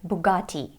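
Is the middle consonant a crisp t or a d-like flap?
crisp t. The middle consonant is a crisp t sound. "in French it sounds like Bugatti"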